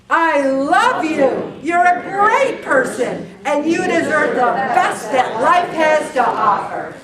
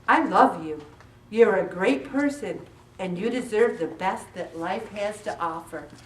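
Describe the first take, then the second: First: It is said with heartfelt, sincere conviction. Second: It is said plainly, without special feeling.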